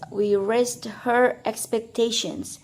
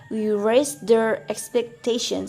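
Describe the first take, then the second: First: The H in 'her' is clearly pronounced. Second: The H in 'her' is dropped and linked. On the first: "the sentence" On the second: "We just say, ... delete the H in her"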